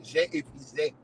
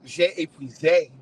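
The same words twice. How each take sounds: First: Quieter repeat of j'ai épuisé in French; soft French repeat; French phrase. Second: Slow mock-French j'ai épuisé; mock French aside; French phrase. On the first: Acted. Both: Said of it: "as the French would say".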